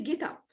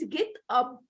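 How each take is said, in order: First: The final consonant links into the next vowel. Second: The two words are said separately. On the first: The speaker calls it right. "It's supposed to say get up" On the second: The speaker calls it wrong. "It's supposed not to teach my students get up"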